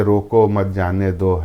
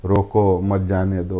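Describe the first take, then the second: First: "روکو" then a short pause, then "مت جانے دو" as one phrase; pause after روکو. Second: "روکو مت" run together, then a pause before "جانے دو"; pause after مت. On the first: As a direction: break right after "روکو" so it means stop, don't let go. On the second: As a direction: break after "مت" so it means don't stop, let go. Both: Shown as a demonstration. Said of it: "کوما ادھر کا ادھر کر کے".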